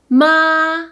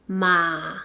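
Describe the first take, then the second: First: The pitch stays high and level. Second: The pitch dips low, then rises.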